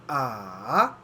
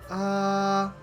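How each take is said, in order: First: The pitch dips low, then rises. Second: The pitch stays high and level throughout. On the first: "the third tone is a dipping tone" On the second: "the first tone is a flat high tone"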